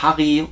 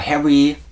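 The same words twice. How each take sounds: First: The name is pronounced with German sounds. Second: The name is pronounced with English sounds. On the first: "die deutsche" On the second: "oder englische Aussprache"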